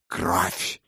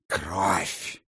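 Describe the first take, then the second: First: Fierce one-word demand, soft; furious bark. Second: Кровь pressed hard with a falling tune; insistent stress. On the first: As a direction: snap the word Кровь at them. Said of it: "яростно бросил вампир". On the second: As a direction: lean into the word Кровь, firm and final. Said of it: "повторил Анавагар с нажимом". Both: Acted.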